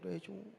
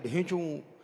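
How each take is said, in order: First: The bray is said softly. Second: The bray is said loudly.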